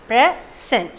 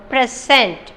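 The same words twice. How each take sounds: First: "present" broken in two, a pause between the syllables; split into syllables. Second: Said in the usual way. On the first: Shown as a demonstration. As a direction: say "present" one syllable at a time. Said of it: "separating the word into". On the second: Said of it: "Okay, present".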